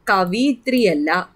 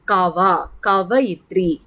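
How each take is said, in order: First: കവിയിത്രി with an 'i' after v; mistaken pronunciation. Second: കവയിത്രി with an 'a' after v; correct pronunciation. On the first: Teacher warns students off a common error, കവിയിത്രി said with 'vi'. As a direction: say കവിയിത്രി, ka-vi-yitri, as the mistaken form. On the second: Teacher corrects students on the feminine of poet, കവയിത്രി said with clear 'va'. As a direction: break out കവ first, then say കവയിത്രി as ka-va-yitri. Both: Shown as a demonstration.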